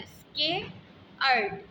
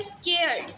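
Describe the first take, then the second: First: स्केयर्ड stretched out slowly, each sound held; teacher says स्केयर्ड slowly so students feel the tongue move; slow careful demo of scared. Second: Said in the usual way. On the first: Shown as a demonstration. Teacher showing pupils the mouth shape, slow stretched स्केयर्ड. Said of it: "अब जब आप इसको पढ़ रहे हैं". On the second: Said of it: "next है स्केयर्ड".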